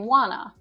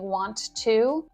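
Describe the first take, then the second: First: The words blend into one reduced word. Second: Both words are said fully and separately. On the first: "say wanna. And most native speakers speak like that all the time" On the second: "instead of saying want to"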